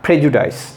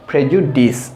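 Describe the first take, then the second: First: The last syllable sounds like 'dice'. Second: The last syllable sounds like 'dis'. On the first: The speaker calls it wrong. "এটা ডাইস না" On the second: The speaker calls it right. "এটা হবে ডিস।"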